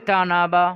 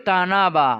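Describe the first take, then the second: The two takes are said the same way.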